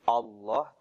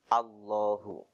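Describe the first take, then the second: First: The first vowel is rounded like 'o'. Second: The first vowel is a clear open 'a'. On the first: The speaker calls it wrong. "jadi jangan O ya. Jadi bukan Allah" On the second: The speaker calls it right. "tapi A"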